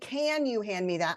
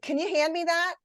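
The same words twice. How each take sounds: First: The word can is full and stressed. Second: The word can is weak and reduced. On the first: The speaker calls it wrong. "I don't say, ... I don't stress that" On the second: The speaker calls it right. "I say kun"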